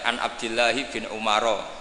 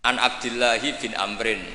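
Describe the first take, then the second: First: The last name is read as Umaro. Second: The last name is read as Amrin. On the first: The speaker calls it wrong. "Itu gurunya langsung tahu" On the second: The speaker calls it right. "kok Amrin ada wawunya, berarti benar"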